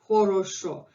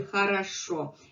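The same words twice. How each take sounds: First: Every vowel is pronounced as a full o. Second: The unstressed vowels are reduced toward a. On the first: The speaker comes from the northwest. "they would say o, they would pronounce хорошо" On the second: This is the standard pronunciation. "norm over Russian language would be хорошо. We reduce this O to A"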